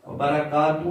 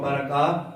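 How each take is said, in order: First: "برکاتہ" ending in tu, final h dropped; wrong "برکاتہ" without the haa; mispronunciation demo. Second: "برکاتہ" with an audible final h; right "برکاتہ", last h sounded; correct pronunciation demo. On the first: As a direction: cut "برکاتہ" off on the vowel. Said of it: "برکاتہ نہیں". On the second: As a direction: let "برکاتہ" end in a breathed haa. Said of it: "یہ ہا کی آواز بھی نکالنی ہے". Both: Shown as a demonstration.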